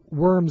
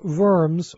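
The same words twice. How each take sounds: First: The name starts with a W sound. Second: The name starts with a V sound.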